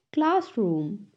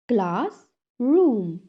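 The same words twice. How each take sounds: First: Said in the usual way. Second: "Classroom" split as class, room; syllable by syllable. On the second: Shown as a demonstration. Teacher has class repeat, "Classroom" broken in two. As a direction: clear pause between the halves of "Classroom". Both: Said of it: "टू syllables में divide".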